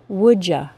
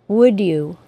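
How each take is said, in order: First: You is reduced to a casual ya. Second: Both words are said separately, with no blending. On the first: "as an informal contraction" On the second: "articulate perfectly, with no assimilation"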